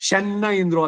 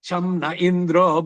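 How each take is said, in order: First: The nasal is said as a doubled n sound. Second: The nasal is said as an anusvara m sound. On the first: The speaker calls it wrong. "ಶನ್ನ ಇಂದ್ರೋ ಅಲ್ಲ" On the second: The speaker calls it right. "ಅಲ್ಲಿ ಶಂನ ಇಂದ್ರೋ"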